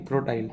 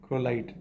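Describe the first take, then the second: First: क्रोटाइल said with a T, kro-tile; correct name. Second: क्रोलाइट said with an L, the wrong way; wrong name. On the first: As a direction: say क्रोटाइल carefully as the correct form. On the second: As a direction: say क्रोलाइट as the mistaken form to reject. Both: Shown as a demonstration. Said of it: "क्रोलाइट नहीं".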